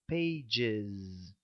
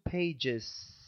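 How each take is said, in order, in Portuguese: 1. O s final é sonoro, como z. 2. O s final é surdo, sem vibração.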